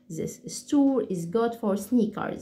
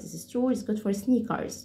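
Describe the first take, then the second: First: Slow and clear. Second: Quick American accent. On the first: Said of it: "بشكل هادي بحيث إن انتوا تسمعوا كل كلمة". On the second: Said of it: "زي الأمريكان أكسنت بالظبط بسرعة". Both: Shown as a demonstration.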